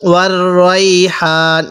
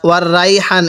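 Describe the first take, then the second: First: The first vowel of raihan is heavy and rounded. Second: The first vowel of raihan is open and plain. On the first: The speaker calls it right. "রয়া জবর রয়" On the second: The speaker calls it wrong. "এরকম ভাবে পড়বো না"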